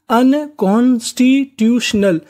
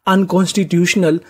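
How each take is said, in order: First: "अनकॉन्स्टिट्यूशनल" slowly in separated chunks, pitched higher; broken into pieces. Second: Said in the usual way. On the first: Shown as a demonstration. Teacher showing learners the whole word, "अनकॉन्स्टिट्यूशनल" slowly in pieces. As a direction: split "अनकॉन्स्टिट्यूशनल" into slow, distinct syllables. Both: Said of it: "टुकड़ों में तोड़ तोड़ के पढ़िए".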